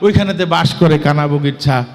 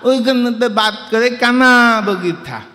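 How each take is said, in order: First: It is recited in a normal adult voice. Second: It is recited in a small child's voice.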